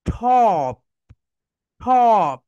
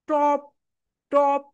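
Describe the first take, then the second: First: টপ said with a strong aspirated ঠ; right ঠপ sound. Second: টপ said with a plain unaspirated t; wrong way top. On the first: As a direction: punch টপ with a breathy ঠ, louder. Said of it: "right হবে, দেখো এখানে". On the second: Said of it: "That is wrong". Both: Shown as a demonstration.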